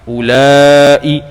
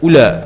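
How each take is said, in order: First: The vowel is lengthened and ends with a glottal stop. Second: The vowel is short with no glottal stop. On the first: This is the form used by speakers who lengthen it. "kalau Hijaz dia matkan ulai" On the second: This is the form used by speakers who shorten it. "Bani Tamim tadi ula, ula saja. Tanpa tanpa ada hamzah"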